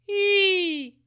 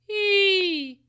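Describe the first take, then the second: First: The vowel is sharp, pressed and scolding. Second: The vowel is sharp, pressed and scolding.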